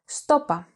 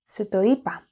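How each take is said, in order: First: The syllables are contracted into two. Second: All syllables are said in full.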